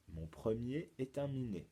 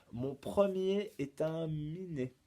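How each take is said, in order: First: Said in the usual way. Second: "Mon premier est un minet" slow and higher; riddle recital. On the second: Shown as a demonstration. Teacher poses a charade to pupils, slow raised recital. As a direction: present the clue deliberately, stretching each word. Presents riddle, then repeats it.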